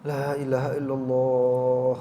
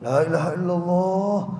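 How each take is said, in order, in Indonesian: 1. Diucapkan dengan lembut dan pelan. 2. Diucapkan dengan tegas dan berulang-ulang. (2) "enggak gitu talqin itu"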